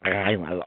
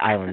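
First: It is said with a hard g sound. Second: It is said in a plain standard way. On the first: "They say island, like I-G, island" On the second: "They don't say island"

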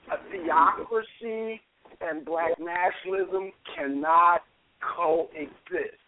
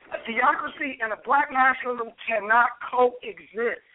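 First: It is said in a put-on Matrix voice. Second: It is said in his normal speaking voice.

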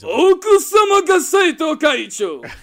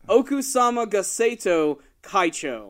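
First: It is said loudly, like a showy TV host. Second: It is said at a normal volume.

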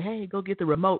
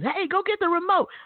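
First: It is said in a calm, normal tone. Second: It is barked harshly like a drill sergeant.

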